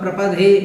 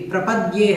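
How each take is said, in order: First: The d has no y glide after it. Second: The d is followed by a y glide. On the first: The speaker calls it wrong. "प्रपदे नहीं है" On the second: The speaker calls it right. "प्रपद्ये है"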